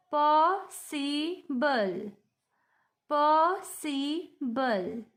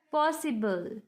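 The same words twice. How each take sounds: First: POSSIBLE very slow in three parts, po-si-ble, pauses between; split into syllables. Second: Said in the usual way. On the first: Shown as a demonstration. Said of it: "उच्चारण ... टुकड़ों में".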